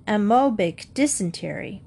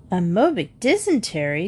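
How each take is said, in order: First: Said in the usual way. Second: Questioning repeat with a swooping rise on DYSENTERY; incredulous echo. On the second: Acted. Mrs Jones questions Julie's odd diagnosis, incredulous echo. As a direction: echo it back as a disbelieving question. Mother echoes it in disbelief.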